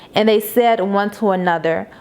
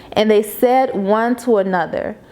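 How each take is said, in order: The two takes are said the same way.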